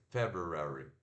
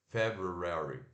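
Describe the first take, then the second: First: The second syllable is said as 'roo'. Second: The same.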